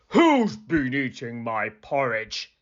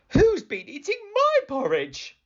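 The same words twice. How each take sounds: First: It is said in a deep, gruff voice. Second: It is said in a medium voice.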